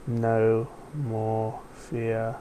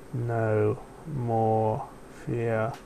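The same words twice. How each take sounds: First: Slow, deliberate command; slow instruction. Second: Slow groggy repeat. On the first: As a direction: spell it out slowly. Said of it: "Now repeat after me". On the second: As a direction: mumble it half asleep. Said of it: "in a slow, groggy voice". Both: A narrator's reading.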